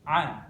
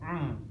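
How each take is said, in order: First: It is said with the mouth open. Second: It is said with the mouth closed. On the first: The speaker calls it right. "Jadi mulutnya tidak tertutup, akan tapi terbuka" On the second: The speaker calls it wrong. "Kalau kita mengucapkannya tertutup susah"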